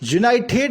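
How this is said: The t before the ending is said as a t. "यूनाइटेड को यूनाइटेड ही पढ़ते हैं, यानी टी ही पढ़ते हैं"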